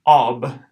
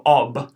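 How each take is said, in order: First: "ob" louder, short aw; repeated "ob"; emphatic syllable. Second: "ob" with a short aw; first take of "ob"; short aw syllable. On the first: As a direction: punch out "ob". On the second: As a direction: model "ob". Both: Shown as a demonstration. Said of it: "that's gonna be an aw sound".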